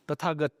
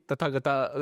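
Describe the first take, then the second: First: The name ends on a consonant sound. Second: The name ends with an extra vowel sound. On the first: The speaker calls it right. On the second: The speaker calls it wrong.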